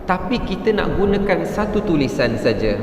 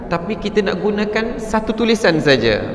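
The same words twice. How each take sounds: No difference in how they are said.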